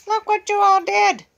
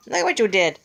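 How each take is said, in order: First: High, loud shout stressing all; scolding shout. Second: Said in the usual way. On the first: Real, not acted. Owner scolding the bird for tearing the rug, loud and high. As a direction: let it burst out at the bird.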